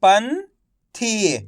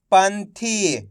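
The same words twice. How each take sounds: First: "पंथी" split slowly, pause before थी; syllable by syllable. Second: "पंथी" blended into one word; syllables joined. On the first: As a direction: sound out "पंथी" as पन, then थी. ("पंथी" को तोड़कर, धीरे-धीरे) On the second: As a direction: say "पंथी" whole, without the pause. ("पंथी" मिलाकर एक शब्द में) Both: Shown as a demonstration. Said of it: "एक एक अक्षर का उच्चारण करके".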